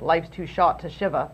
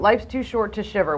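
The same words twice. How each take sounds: First: It is said in a Boston accent. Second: It is said in a plain, neutral accent.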